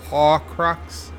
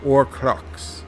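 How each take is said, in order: First: The word begins with an audible H sound. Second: The word begins with no H sound.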